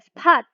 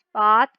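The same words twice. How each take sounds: First: The p has a strong puff of air. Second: The p has no puff of air. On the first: The speaker calls it wrong. "nggak dibaca cap atau spot" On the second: The speaker calls it right. "tapi tipis"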